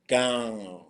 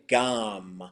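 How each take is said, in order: First: The word ends with a nasalized W sound. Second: The word ends with an M sound. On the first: "with a nasalized W" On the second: "with the M sound"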